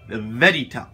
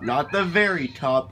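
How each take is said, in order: First: The middle consonant of 'very' sounds like D. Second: The middle consonant of 'very' sounds like R. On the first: The speaker calls it right. "You gotta say it with the D" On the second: The speaker calls it wrong.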